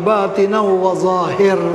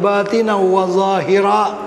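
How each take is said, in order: First: The last word ends on a bare consonant. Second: The last word ends with an added vowel. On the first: It keeps the rhyme of the verse. "Baca macam mana?" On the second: It follows the grammar rules. "kalau ikut nahu dia"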